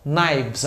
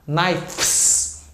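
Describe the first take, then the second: First: "knives" with a V before the final S; natural plural sound. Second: "knives" slow with F kept, like "knifes"; forced F-S ending. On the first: Teacher gives the plural of knife, natural VS ending. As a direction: let "knives" end in VS, K silent. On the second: Teacher shows the unnatural plural, forced FS ending. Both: Shown as a demonstration. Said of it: "o F S naturalmente vai virar V S".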